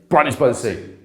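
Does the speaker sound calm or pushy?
pushy. It is said in a pushy, over-emphatic way. The speaker is trying to prove something. The speaker calls it wrong. "you wouldn't say"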